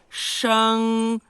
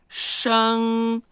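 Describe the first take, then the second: No difference in how they are said.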